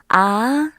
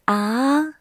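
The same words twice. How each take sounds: First: The pitch rises from middle to high. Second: The same.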